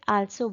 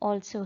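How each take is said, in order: First: The first vowel is open with unrounded lips. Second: The first vowel is said with rounded lips. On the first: The speaker calls it wrong. "कुछ बच्चे उसे आल्सो बोलते हैं, that is wrong." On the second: The speaker calls it right. "हमारे lips ओ के shape में आ जाएंगे"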